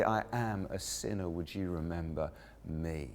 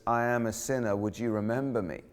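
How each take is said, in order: First: Hushed plea. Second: Said in the usual way. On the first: Retold or imitated.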